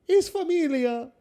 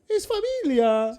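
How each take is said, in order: First: Repeated with a bit more push; same mock Italian, insisted; Italian accent. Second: Slow warm mock Italian; Italian mama embracing the fans; Italian accent. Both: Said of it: "that Italian accent".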